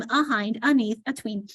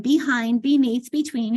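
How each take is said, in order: First: "ahind, aneath, atween" with "uh" replacing each "be"; daughter's childhood mispronunciation. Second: Said in the usual way. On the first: Retold or imitated. Mother imitating her little daughter's prefixes, mispronounced with "uh". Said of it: "she pronounced uh". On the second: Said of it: "all her B E prefixes".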